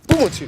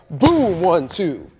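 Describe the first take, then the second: First: It is said quickly, short and choppy. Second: It is said slowly, with long gaps.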